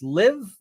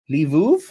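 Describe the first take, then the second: First: The name is said as one syllable. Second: The name is said as two syllables. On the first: The speaker calls it wrong. "I believe you pronounce this Liv, but I'm probably entirely wrong" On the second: The speaker calls it right. "I would have never gotten that from that spelling"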